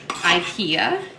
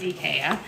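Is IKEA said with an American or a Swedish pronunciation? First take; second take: American; Swedish. First: It is said with an American pronunciation. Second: It is said with a Swedish pronunciation. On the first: "as everyone here in America calls it" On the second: "The Swedish pronunciation is"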